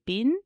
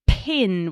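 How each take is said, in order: First: "bin" with no puff of air; child's softened pin; unaspirated. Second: "pin" with a strong airy puff on the p; breathy aspirated pin; puffy aspirated p. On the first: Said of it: "without that puff of air". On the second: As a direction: push air on the p of "pin". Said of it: "with that, like, real airy, puffy sound". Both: Shown as a demonstration.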